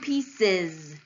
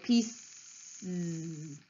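First: An extra vowel comes before the final Z. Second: A plain Z follows with no extra vowel. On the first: The speaker calls it right. "You've actually added a vowel in there too" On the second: The speaker calls it wrong. "You can either say z, which would sound like pieces, right? Pieces, right? Which we don't do"

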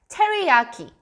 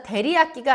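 First: The word begins with a clear T sound. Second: The word begins with a soft D-like sound. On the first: The speaker calls it right. "원래 있는 발음인 T를 살려준다" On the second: The speaker calls it wrong. "한국말 그대로 데리야끼라고 하면 못 알아들어요"

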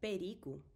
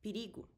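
First: The first vowel sounds like E. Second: The first vowel sounds like I. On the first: "You can say also perigo, that's totally fine" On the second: "But you hear perigo"

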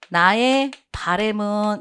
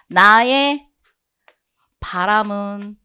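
First: The second syllable of the noun has 'ae'. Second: The second syllable of the noun has 'a'. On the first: The speaker calls it wrong. "바램 없어요" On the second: The speaker calls it right. "내 바람은 이렇게 가셔야 돼요"

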